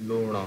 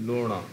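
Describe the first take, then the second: The two takes are said the same way.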